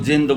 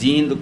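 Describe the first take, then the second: First: The first vowel is short. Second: The first vowel is long. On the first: It means a ghost or evil spirit. The speaker calls it wrong. "जिंद कहते हैं हरियाणा में भूत प्रेत और पिशाच ने।" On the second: It names the town. The speaker calls it right. "पहली बात तो आपने जींद को जिंद बोला।"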